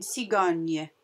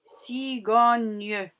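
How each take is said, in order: First: Said in the usual way. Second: "cigogne" stretched as ci-go-gne, final e sounded, louder; syllable-by-syllable word. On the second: Shown as a demonstration. Teacher modelling the word for pupils, "cigogne" stretched by syllable. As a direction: sound out "cigogne" slowly in three parts. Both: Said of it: "Comme dans le mot".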